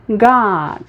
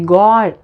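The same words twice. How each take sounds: First: The vowel is more open and further back. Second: The vowel is less open and further forward. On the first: The speaker calls it right. "você vai dizer God" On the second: The speaker calls it wrong. "em vez de God"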